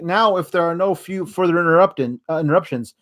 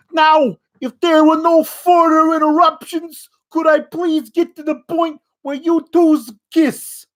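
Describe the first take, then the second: First: Said in the usual way. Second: Much higher, louder, hammed-up New York officiant; over-the-top New York accent. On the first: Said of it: "He didn't sound like that this week". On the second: Last week's officiant to couple, over-the-top New York accent. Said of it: "that was what he sounded like last week".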